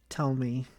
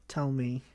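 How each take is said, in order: The two takes are said the same way.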